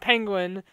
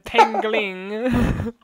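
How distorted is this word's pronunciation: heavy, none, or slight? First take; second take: none; heavy. First: The word is pronounced normally and clearly. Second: The word is pronounced with heavy distortion. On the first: The speaker calls it right. "It goes from penguin" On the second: The speaker calls it wrong. "his pronunciation just gets worse and worse"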